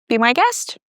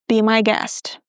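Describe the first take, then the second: First: It sounds friendly and polite. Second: It sounds sarcastic and annoyed.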